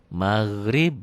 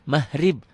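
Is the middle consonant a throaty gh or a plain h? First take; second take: gh; h. First: The middle consonant is a throaty gh sound. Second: The middle consonant is a plain h sound. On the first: The speaker calls it right. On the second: The speaker calls it wrong.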